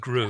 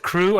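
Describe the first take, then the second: First: The name begins with a g sound. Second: The name begins with a k sound. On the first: The speaker calls it wrong. "I thought it was Gru" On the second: The speaker calls it right. "Crew, with a K"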